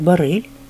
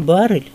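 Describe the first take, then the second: First: The stress is on the second syllable. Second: The stress is on the first syllable. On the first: This is how only one person says it. "с ударением на втором слоге" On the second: This is how everyone else says it. "Не баррель"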